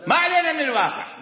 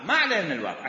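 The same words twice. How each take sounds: First: Laughing the phrase out, higher and louder. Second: Said in the usual way. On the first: Real, not acted. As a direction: say it through a real laugh. Laughs while repeating the phrase. (بضحكة حقيقية)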